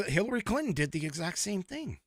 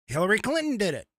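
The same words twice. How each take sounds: First: Said in the usual way. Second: Fast, higher, louder put-on twang; bad mock accent. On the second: Mocking Hillary Clinton's borrowed accent, fast and higher. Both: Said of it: "That was a bad impression".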